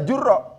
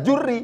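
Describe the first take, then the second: First: The final consonant is followed by an 'a' vowel. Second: The final consonant is followed by an 'i' vowel. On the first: "Pengharokatnya memungkinkan dengan menggunakan fathah" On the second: "pakai kasroh pengharokatannya"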